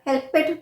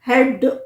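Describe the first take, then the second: First: The ending is an extra 'ed' syllable. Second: The word ends with a d sound. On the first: "या हेल्पेड भी नहीं" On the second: "हेल्प्ड नहीं"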